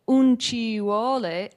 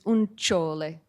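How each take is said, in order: First: Every syllable of 'ci vuole' is said in full. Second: 'Ci vuole' is squeezed into one elided syllable.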